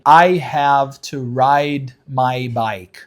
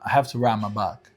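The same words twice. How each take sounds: First: The vowel in 'ride' glides like 'eye'. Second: The vowel in 'ride' is a long flat 'ah'. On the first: "Instead of saying" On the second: "So I make the ah a little longer and I don't say I"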